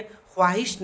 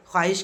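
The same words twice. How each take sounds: First: ख्वाहिश with the w sounded, khwaahish; spelling-pronunciation khwaahish for ख्वाहिश; wrong, sounded w. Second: ख्वाहिश said as khaahish; correct, silent w. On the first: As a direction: pronounce the vao in ख्वाहिश as w. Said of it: "ख्वाहिश नहीं कहेंगे". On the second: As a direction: drop the w in ख्वाहिश. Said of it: "ख्वाहिश कहेंगे". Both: Shown as a demonstration.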